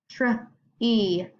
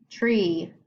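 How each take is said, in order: First: "tree" split into tr and ee; tree sounded out. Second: Said in the usual way. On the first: Shown as a demonstration. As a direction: separate the blend from the long E. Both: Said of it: "think about the sound that the vowel makes".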